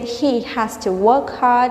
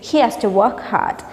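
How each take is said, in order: First: Both words are said fully and separately. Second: The words are blended into one reduced form. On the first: "instead of saying" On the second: "we can say"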